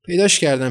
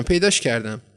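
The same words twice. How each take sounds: First: Loud, high cry of delight; joyful shout. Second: The echo of the happy cry, settling down; joyful repeat. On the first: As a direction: shout it out, thrilled to find the egg. (فریاد شاد و بلند) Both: A narrator's reading. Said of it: "غرق شادی شروع به داد و فریاد کرد".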